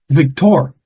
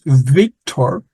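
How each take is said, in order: First: "Victor" with the accent on its final syllable, vic-TOR; stress on last syllable. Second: Said in the usual way. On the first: Shown as a demonstration. Teacher showing how Haitians say the name, "Victor" stressed on the last syllable. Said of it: "the accent is always on the last syllable". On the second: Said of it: "even though your name is Victor".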